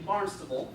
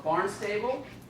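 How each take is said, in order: First: The name is pronounced the local way. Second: The name is pronounced as it is spelled. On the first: The speaker calls it right. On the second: The speaker calls it wrong.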